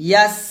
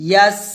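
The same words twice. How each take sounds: No difference in how they are said.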